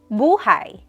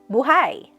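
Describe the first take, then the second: First: The stress is on the first syllable. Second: The stress is on the last syllable. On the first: It means life. "when the emphasis is on the first syllable, it means life" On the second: It means alive. "When the emphasis is on the last syllable, it means alive"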